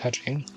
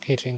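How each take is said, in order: First: The name sounds like the word 'ka-ching'. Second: The name sounds like the word 'keychain'. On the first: "I don't like saying Kaching" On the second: "I always just say Keychain"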